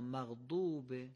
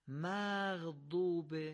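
First: The short vowel is kept short. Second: The short vowel is drawn out long. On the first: The speaker calls it right. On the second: The speaker calls it wrong.

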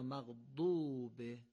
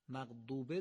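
First: The vowel in maghdub is drawn out long. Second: The vowel in maghdub is short and rushed. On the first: The speaker calls it right. "قطعا دومی درسته" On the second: The speaker calls it wrong. "در اثر عجله کردن"

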